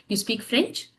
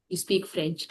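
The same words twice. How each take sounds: First: "you speak French" rising on "French"; question intonation. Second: "you speak French" softer, falling at the end; statement intonation. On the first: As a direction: make "you speak French" a question by lifting the last word. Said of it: "Same like English". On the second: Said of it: "if you are not, uh, uh, using a raising tone". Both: Shown as a demonstration.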